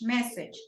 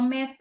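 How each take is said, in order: First: The word ends with a 'j' sound. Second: The word ends with a vowel sound. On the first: The speaker calls it right. "message, no mesa" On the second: The speaker calls it wrong. "there was a little detail with that pronunciation"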